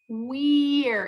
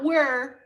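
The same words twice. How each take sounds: First: The vowel is a long E sound. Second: The vowel sounds like the one in were. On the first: The speaker calls it right. "It's E" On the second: The speaker calls it wrong. "Not we're"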